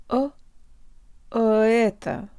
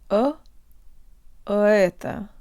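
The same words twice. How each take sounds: The two takes are said the same way.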